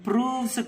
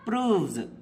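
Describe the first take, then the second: First: The word ends with a hissing s sound. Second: The word ends with a buzzing z sound. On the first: The speaker calls it wrong. "అది ప్రూవ్స్ కాదు" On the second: The speaker calls it right. "జా అవుతుంది"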